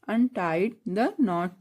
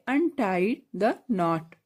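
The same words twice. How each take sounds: First: Untie the knot very slowly, each word stretched; slow drill. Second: Said in the usual way. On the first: Shown as a demonstration. Teacher slowly modelling the phrase for pupils. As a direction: draw it out so the class can repeat. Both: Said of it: "English में बोलेंगे".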